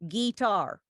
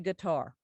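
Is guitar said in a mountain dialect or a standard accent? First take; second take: mountain; standard. First: It is drawn out, almost three syllables. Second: It is said in a plain standard accent. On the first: The speaker calls it right. "It almost has three syllables" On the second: The speaker calls it wrong. "never say guitar"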